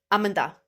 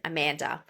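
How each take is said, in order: First: Put-on Amanda in an Indian accent, "UM-un-tha"; Indian-accented Amanda with short "uh" vowels; Indian English accent. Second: Amanda in an Australian accent, stressed "MAN"; Australian-accented Amanda, open middle vowel. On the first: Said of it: "saying my name in an Indian English accent". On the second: Shown as a demonstration. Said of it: "say my name in my accent".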